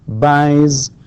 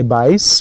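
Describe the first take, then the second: First: The word ends with a voiced z sound. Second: The word ends with a voiceless s sound. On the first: The speaker calls it right. "we say" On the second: The speaker calls it wrong. "We don't say buys"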